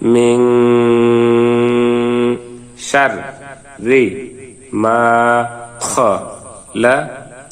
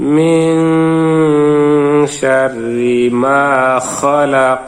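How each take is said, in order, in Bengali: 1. প্রতিটি অক্ষর আলাদাভাবে, বিরতি দিয়ে বলা হয়। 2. অক্ষরগুলো জুড়ে একটি মসৃণ প্রবাহে পরিণত হয়। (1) "এখন আমরা ভাঙ্গা ভাঙ্গা উচ্চারণ করব।" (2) "এখন আমরা মিলিয়ে পড়ব।"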